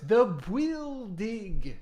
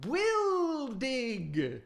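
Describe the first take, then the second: First: "Bwildig" said slowly as bwild-dig; Bwildig pronounced. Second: "Bwildig" repeated high as bwild-dig; Bwildig pronounced. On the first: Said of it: "The what?". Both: Acted.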